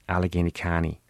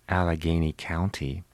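First: The ow vowel in County sounds like ah. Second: The ow vowel in County sounds like ow.

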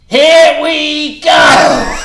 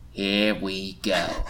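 First: The phrase is shouted loudly. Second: The phrase is said at normal volume. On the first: The speaker calls it right. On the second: The speaker calls it wrong.

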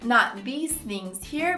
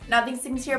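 First: The sentence is said at a moderate pace. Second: The sentence is said very quickly. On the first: "The whole sentence" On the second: "E super fast"

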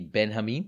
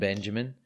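First: The name is said in a Jewish-style way. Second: The name is said in a plain English way.

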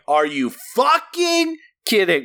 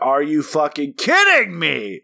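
First: The stress falls on the word fucking. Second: The stress falls on the word kidding.

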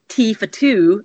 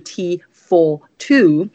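First: The small words are reduced to schwa. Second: The small words keep their full vowels. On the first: It is harder to understand internationally. "the weak form schwa, which in a lot of situations can cause more problems with intelligibility" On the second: It is easier to understand internationally. "as opposed to"

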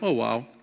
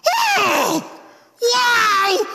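First: It is said in a flat, passive way. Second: It is said with excited, heavy emphasis.

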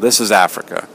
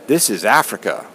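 First: It sounds resigned and dismissive. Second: It sounds upbeat and proud.

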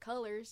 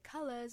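First: It has a plain accent with ordinary R's. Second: It has a Southern Belle accent with different R's. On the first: "instead of" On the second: "her R's are always different"

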